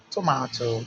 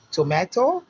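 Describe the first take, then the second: First: British "tomato" with an AH vowel; "tomato," the British way, broad middle vowel; British pronunciation. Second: American "tomato" with an AY vowel; "tomato," the American way, lifted at the end; American pronunciation. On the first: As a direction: say "tomato," as "to-MAH-to". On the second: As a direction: say "tomato," as "to-MAY-to", louder and rising. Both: Shown as a demonstration.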